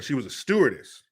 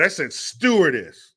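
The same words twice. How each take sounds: First: Said in the usual way. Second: Stewardess drawn out, higher and firm; defiant, emphatic stewardess; stress on stewardess. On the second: Real, not acted. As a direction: lean hard and slowly on the word stewardess. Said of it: "Yeah, that's right. I said stewardess".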